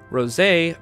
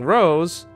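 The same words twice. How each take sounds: First: The name is said the original Japanese way. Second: The name is said the English dub way.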